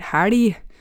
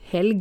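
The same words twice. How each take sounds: First: The L is a thick, flapped L sound. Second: The L is a plain, clear L sound. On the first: This is how the local dialect says it. "vi sier helg" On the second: This is not how the local dialect says it. "så vi sier ikke helg"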